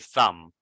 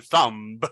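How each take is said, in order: First: The word ends on the m sound. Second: A b sound is pronounced at the end. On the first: The speaker calls it right. "We say thumb only with the M" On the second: The speaker calls it wrong. "we don't say thumb"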